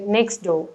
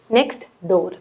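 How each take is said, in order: First: The t of next is dropped, words linked. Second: The t of next is clearly pronounced. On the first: The speaker calls it right. "in a connected manner" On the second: The speaker calls it wrong. "you won't pronounce it as"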